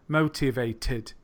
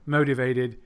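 First: The middle T is a crisp T. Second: The middle T sounds like a soft D. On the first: This is the original way to say it. "than it is to say motivated. You have to make a lot more effort" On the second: This is the quicker, easier way to say it. "it's easier to say motivated"

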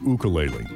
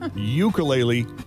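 First: It is pronounced the local Hawaiian way. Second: It is pronounced the non-local, mainland way. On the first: The speaker calls it right. "that's the correct pronunciation" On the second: The speaker calls it wrong. "If you pronounce it ukulele, you ain't local"

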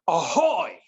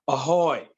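First: It is said with a lot of energy. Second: It is said with little energy.

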